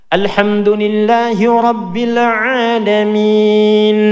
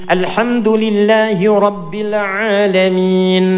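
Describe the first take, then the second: No difference in how they are said.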